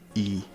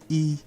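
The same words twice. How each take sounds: First: The syllable is said on a low tone. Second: The syllable is said on a high tone. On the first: It marks the subject agreement. "with that low tone there" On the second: It marks the object agreement. "high tone"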